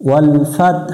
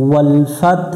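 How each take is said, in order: The two takes are said the same way.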